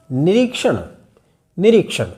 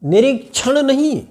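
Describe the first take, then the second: First: निरीक्षण with a clear retroflex श; निरीक्षण said with क then श; correct क्ष. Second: निरीक्षण said as nirikchhan; wrong क्ष as छ. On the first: (निरीक्षण का सही उच्चारण) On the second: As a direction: mistaken निरीक्षण with a छ sound. (निरीक्षण को छ के साथ बोलना, गलत) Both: Shown as a demonstration.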